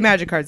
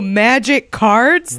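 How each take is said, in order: First: The stress falls on the word magic. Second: The stress falls on the word cards. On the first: It is an ordinary, acceptable game. The speaker calls it right. "oh, okay, magic cards, it's a game" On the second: The speaker sounds like a huge dork. The speaker calls it wrong. "That's like way worse"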